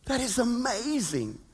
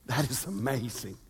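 First: Said in the usual way. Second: Hushed wonder. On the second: Real, not acted. Repeated, soft then plain.

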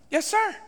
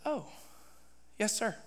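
First: High, rising "yes, sir"; eager compliance. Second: Very soft, small falling reply; chastened submission. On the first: Preacher agreeing to the Lord's orders, eager compliance. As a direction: perk up and answer readily. Second reply, now eager. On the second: Preacher answering the Lord's rebuke, chastened and meek. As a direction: answer meekly after being told off. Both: Retold or imitated.

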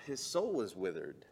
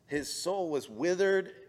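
First: Said in the usual way. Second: "His soul was withered." louder and higher, leaning on "withered"; repeated with force. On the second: Shown as a demonstration. Preacher repeating the point to the congregation, with force on withered. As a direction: hammer "withered" the second time.

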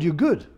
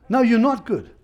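First: Lightly imitating a casual church voice, you're good; easy dismissive you're good; breezy mock reassurance. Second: Not hit hard, the whole line pushed up and louder; emphatic preacher's rebuttal on not; stress on NOT. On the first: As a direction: toss off good as if it settles everything. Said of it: "They say". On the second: Shown as a demonstration. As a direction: correct them firmly, leaning on not.

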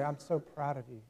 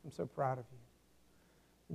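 First: A soft, tender "so proud" from a father; quietly pleased, as a father to his son; dad telling his boy he is proud, gently; words of delight. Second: Much softer and slow, almost hushed; father's quiet pride in his son, said slowly and softly; tender words of delight. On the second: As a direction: let it fade out tenderly, savouring each word. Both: Retold or imitated. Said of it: "these words of delight".

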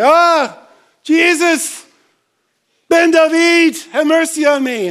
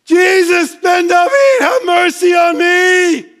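First: Loud high call for mercy; first call. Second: High, loud, drawn-out cry for mercy; desperate shout. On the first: Beggar's first call to passing Jesus, loud high call. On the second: Beggar shouting to Jesus over the crowd, desperate cry. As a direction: scream it over the crowd, begging. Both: Retold or imitated. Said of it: "No, it's".

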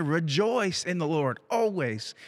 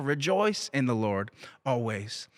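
First: "Rejoice" and "always" given weight, slowly; emphatic scripture quote. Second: Said in the usual way. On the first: Acted. Preacher stressing a repeated Bible command to the congregation, emphatic. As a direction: drive home "Rejoice in the Lord always". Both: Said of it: "it's given with emphasis".

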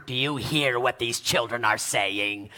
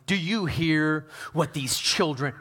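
First: Mock-indignant chief priest in a low voice; low, theatrical religious outrage, played up. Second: Said in the usual way. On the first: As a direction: put on a hammed-up, low indignant voice. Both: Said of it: "they were indignant".

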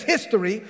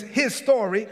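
First: "history" said as one ordinary word; run-together HISTORY. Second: "his story" pulled apart into two words; split HIS STORY. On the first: Preacher reads what the text says, "history" as one word. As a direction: say "history" as a single joined word. Contrasts history with "his story. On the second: Preacher reinterprets history for the congregation, "his story" as two words. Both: Shown as a demonstration.

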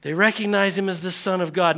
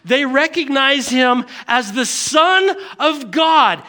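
First: Said in the usual way. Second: Slow, high preacher's punch on "Son of God"; emphatic proclamation. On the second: Real, not acted. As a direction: proclaim it, leaning hard on "Son". Emphatic first take, later restated calmly.

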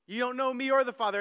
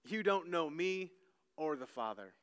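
First: Said in the usual way. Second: Hushed quote. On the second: Shown as a demonstration. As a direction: let it drop to a near hush. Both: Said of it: "says in different ways".

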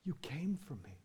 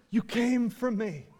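First: Very soft, hushed retelling of a whisper; barely voiced, like someone overcome; tearful whisper. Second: Voiced, softened quote inside an impassioned sermon; preacher quoting her with wonder; preacher's retelling. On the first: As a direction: imitate her whispering through tears. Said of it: "she kind of whispers this". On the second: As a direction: repeat her words audibly, without the whisper. Repeats her response while preaching.

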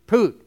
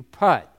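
First: Higher, louder "Poot", rhyming with boot; "Poot" with long oo. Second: "putt" as golfers say it, rhyming with but; usual "putt", short uh. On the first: Answering how the word would be said, a loud "Poot". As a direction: read putt phonetically as "Poot" with oo. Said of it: "a U is pronounced oo". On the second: Asking golfers what they do, "putt" with short uh. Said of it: "They putt". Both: Shown as a demonstration.

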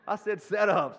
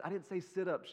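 First: Loud, punched "set-ups"; stress on set-ups. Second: Said in the usual way. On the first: Real, not acted. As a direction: hit "set-ups" hard to correct the mishearing. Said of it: "not sit-ups".

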